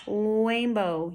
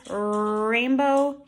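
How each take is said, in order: First: Rainbow said as "wainbow"; "rainbow" with rounded W replacing R. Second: Rainbow with a drawn-out R at the front; "rainbow", long clear R, not W; correct initial R. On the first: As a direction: open "rainbow" on a long W. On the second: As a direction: hold the R that opens "rainbow". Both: Shown as a demonstration. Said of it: "you can hear the difference".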